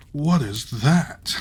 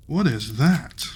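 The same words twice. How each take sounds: First: A slow, louder amazed "What is that"; slow surprised cry. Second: Lightly voiced tailor, louder amazed "What is that"; tailor's voice. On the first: A narrator's reading. Tailor marvels at the distant tower, slow surprised cry. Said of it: "cried the tailor". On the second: Reader retakes the tailor's cry in a voice, louder and amazed. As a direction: retake the line in character, marvelling. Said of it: "I should do voices for these people".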